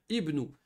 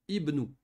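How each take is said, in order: Both takes have the same delivery.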